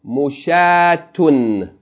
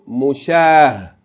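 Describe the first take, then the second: First: The word ends with a t-sound and -un. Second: The word ends in a with no t-sound. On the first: The reading continues on without stopping. "continual mode" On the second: The reader stops on this word. "Pause mode"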